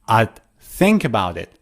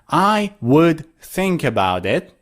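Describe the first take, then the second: First: 'I would' is squeezed into one short syllable. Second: Both words of 'I would' are said in full. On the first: "you can say odd" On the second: "instead of I would"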